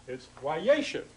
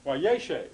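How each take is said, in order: First: "wayeshev" with stress on the first syllable, rising; Hebrew word said slowly. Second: "wayeshev" said again, stress first, falling to close; Hebrew word repeated. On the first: Teacher modelling "wayeshev" for Hebrew students. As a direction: sound out "wayeshev" carefully, accent up front. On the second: Teacher repeats "wayeshev" for Hebrew students. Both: Shown as a demonstration.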